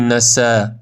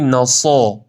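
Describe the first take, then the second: First: The s sound is thin and plain. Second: The s sound is thick and emphatic. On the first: The speaker calls it wrong. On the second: The speaker calls it right.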